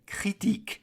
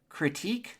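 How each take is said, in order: First: It is said with a French accent. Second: It is said with an English accent.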